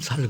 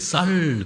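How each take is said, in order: First: The word begins with a plain, lax s sound. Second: The word begins with a tense, stiff s sound.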